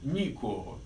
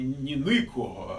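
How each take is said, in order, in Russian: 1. Первый гласный — чёткий звук 'ee'. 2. Первый гласный — более глухой звук 'ih'. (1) "а никого. Никого через Ай, а не через И" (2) "Не никого"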